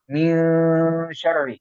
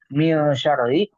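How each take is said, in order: First: The nasal is held for two or three beats. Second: The nasal passes straight into the next word. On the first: The speaker calls it right. "agak ditahan ya. Dua kurang lebih dua sampai tiga" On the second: The speaker calls it wrong. "Jangan langsung"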